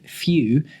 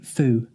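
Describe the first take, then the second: First: It is said in a standard English accent. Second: It is said in a Norfolk accent.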